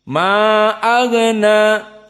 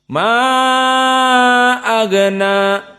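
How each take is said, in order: First: The vowel of 'ma' is held briefly. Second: The vowel of 'ma' is held twice as long. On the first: "al-qasr ... ma hanya dua harokat" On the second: "ma-nya empat, na agna dua"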